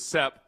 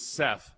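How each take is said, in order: First: The name ends with a p sound. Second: The name ends with a th sound. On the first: The speaker is from the country. "Country was Sep" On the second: The speaker is from the city. "city was Seth"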